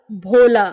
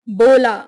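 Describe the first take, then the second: First: Breath puff on BH in भोला; aspirated practice word. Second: Plain B in बोला; unaspirated practice word. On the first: Teacher drilling southern students, भोला with aspiration. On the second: Teacher drilling southern students, बोला without aspiration. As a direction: start बोला with ब, no puff of air. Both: Shown as a demonstration. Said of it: "उच्चारण का विशेष अभ्यास".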